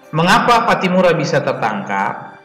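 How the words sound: It is said with clear question intonation.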